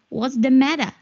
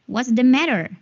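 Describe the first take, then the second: First: It is said in a British accent. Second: It is said in an American accent.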